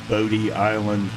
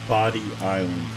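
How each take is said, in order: First: The first word is said 'Bo-dee', long O. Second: The first word is said like 'body'. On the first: This is how outsiders say the name. The speaker calls it wrong. "There is no Bodie Island Lighthouse" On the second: This is how locals say the name. The speaker calls it right. "It is Body Island. If you want to fit in with the locals"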